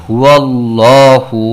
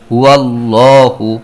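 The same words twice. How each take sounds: First: The L in Allah is pronounced heavy and full. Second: The same.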